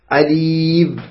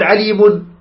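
First: "عليم" stopped on a closed meem; pausal ending. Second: "عليم" said aleemun; connected tanween ending. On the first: Teacher shows stopping on the word, no tanween. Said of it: "وتسقط وقفا". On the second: Teacher contrasts it with stopping, sounded tanween. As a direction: add a clear "un" to the end of "عليم". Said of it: "لأنه عند الوصل". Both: Shown as a demonstration.

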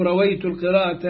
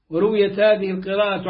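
First: رويت as "rawaytu"; alternative vowelling. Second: ورويت as "wa-ruwiyat"; passive vowelling. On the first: Reader offering the alternative wording, رويت as active "rawaytu". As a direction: say رويت with a on the ر and an -ayt ending. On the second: Reader giving the first wording, ورويت as passive "ruwiyat". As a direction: say ورويت with u on the ر, ending in -at. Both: Shown as a demonstration. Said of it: "أو رويت القراءة عن عاصم".

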